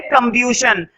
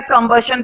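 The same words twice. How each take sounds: First: कंब्यूशन with a y glide, kam-byoo-shan; students' pronunciation. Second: कंबशन with no y glide, plain kam-bshan; teacher's pronunciation. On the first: Teacher shows students' kam-byoo-shan pronunciation. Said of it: "कुछ बच्चे इसको कंब्यूशन पढ़ते हैं". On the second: Teacher gives his own kam-bush-un pronunciation. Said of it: "लेकिन मैं कंबशन पढ़ता हूं". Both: Shown as a demonstration.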